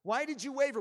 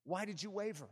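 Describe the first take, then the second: First: Raised, forceful repeat of the question; insistent preached question. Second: Soft, gentle-level asking; subdued question. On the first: Preacher voices Jesus challenging Peter, insistent and forceful. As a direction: press the question hard. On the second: Preacher voices Jesus questioning Peter, subdued and soft. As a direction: ask it quietly, held back. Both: Acted.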